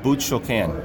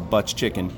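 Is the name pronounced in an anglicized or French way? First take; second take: French; anglicized. First: The name is said with a French pronunciation. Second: The name is said with an English pronunciation. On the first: "my French isn't very good, but it's a butch choquin" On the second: "or we call it butch chicken"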